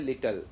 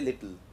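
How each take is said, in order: First: A full vowel is heard before the final L. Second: No vowel is heard before the final L. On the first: The speaker calls it wrong. "you do not say little" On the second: The speaker calls it right. "you say little"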